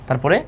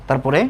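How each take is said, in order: Both takes have the same delivery.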